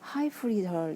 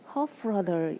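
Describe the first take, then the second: First: It is pronounced with an English accent. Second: It is pronounced with a Welsh accent. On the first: "영어로는 하이프리덜 이렇게 얘기합니다" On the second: "웨일즈식의 발음을 하면 허프러들 이렇게 한다고 합니다"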